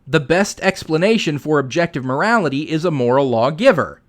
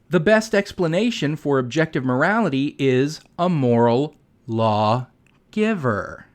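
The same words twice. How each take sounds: First: It keeps an even, normal pace to the end. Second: It slows down, lingering on the final words. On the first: It is said plainly, without talking down. The speaker calls it right. "why can't he just say" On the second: It sounds condescending to the listeners. The speaker calls it wrong. "he sounds like he's constantly talking down to everyone when he says"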